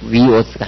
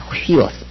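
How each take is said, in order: First: The word begins directly with a vowel. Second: The word begins with a breathy h sound. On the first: The speaker calls it wrong. "이건 위오스가 아니라" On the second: The speaker calls it right. "휘오스 그렇게 읽습니다"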